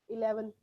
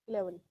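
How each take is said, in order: Both takes have the same delivery.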